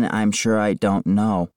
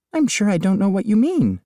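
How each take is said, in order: First: Plain quoting back. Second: Lightly voiced chirpy agent on speakerphone; real estate agent. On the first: Retold or imitated. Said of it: "what does that mean". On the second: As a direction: gush like an agent selling a house. Diane's evasive reply.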